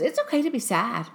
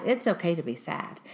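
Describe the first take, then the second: First: Higher-pitched imitation of the daughter; quoted daughter. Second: Said in the usual way. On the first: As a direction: echo a daughter's words in a higher voice. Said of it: "My daughter, though, she goes". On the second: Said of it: "And I go, "Oh, yeah".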